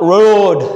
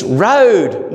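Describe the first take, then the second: First: "road" with a long Scottish vowel, higher; mock Scottish accent. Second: Put-on "road" in a broad Australian accent, higher; little boy's emphatic Australian "road". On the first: Son mimicking Mum's singing, exaggerated Scottish "road". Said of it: "sing it in a Scottish accent". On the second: Son correcting his mother's singing, stressed Australian "road". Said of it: "he won't let Ali sing it in a Scottish accent".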